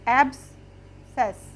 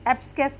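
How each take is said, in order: First: The c is silent, with no k sound. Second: A k sound follows the s. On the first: The speaker calls it right. "C is silent" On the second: The speaker calls it wrong. "एब्सकेस नहीं पढ़ेंगे इसको"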